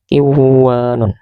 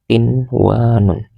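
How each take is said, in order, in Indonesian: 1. Bunyi n sebelum w dihilangkan. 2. Bunyi n sebelum w dibaca dengan jelas. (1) "Tidak boleh dibaca qiwanun" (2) "tapi tetap dibaca qinwanun"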